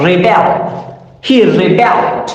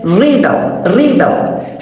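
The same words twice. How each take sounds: First: Verb "rebel" said re-BEL; stress on second syllable. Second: Noun "rebel" said REB-el; stress on first syllable. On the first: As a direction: push the beat onto BEL in "rebel". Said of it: "is a verb". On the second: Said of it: "stress is over the past syllable". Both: Shown as a demonstration.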